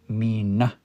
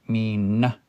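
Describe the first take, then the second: Both takes have the same delivery.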